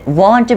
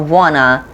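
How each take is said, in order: First: Both words are said fully and separately. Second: The words blend into one sound, wanna.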